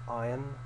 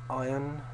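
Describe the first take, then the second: The two takes are said the same way.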